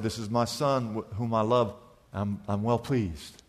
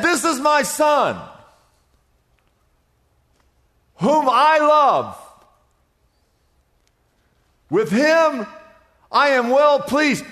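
First: Quiet, intimate retelling of God's words; soft, hushed quote. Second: Slow, high, ringing proclamation from heaven; grand heavenly voice, drawn out; booming voice of God. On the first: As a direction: lower and much softer, almost tender. The same quote retold softly. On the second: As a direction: announce it like God speaking from the clouds. God's voice from heaven quoted. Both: Acted.

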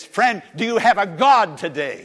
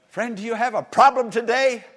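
First: "God" punched louder in the question; stress on GOD. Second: High, loud question leaning on "problem"; stress on PROBLEM. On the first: Preacher countering the problem with a question, stressing "God". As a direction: hit "God" hard as the answer. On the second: Preacher asking the congregation about trouble, stressing "problem". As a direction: put the weight on "problem". First of two contrasted questions. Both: Real, not acted.

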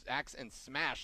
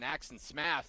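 First: Said in the usual way. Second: "Smash" lisped as "Smath"; slip from new teeth. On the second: Real, not acted. Wrestling host fumbling a tag team name with new teeth, lisped. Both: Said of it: "still getting used to these new chompers".

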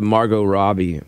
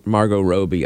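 First: "Margot Robbie" as MAR-go RAH-bee; familiar pronunciation. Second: "Margot Robbie" as MAR-go ROH-bee; long O alternative. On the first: Host preferring the known name, familiar pronunciation. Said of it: "she should stick with". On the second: Host offering an alternative, long O alternative. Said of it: "Or Margot". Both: Shown as a demonstration.

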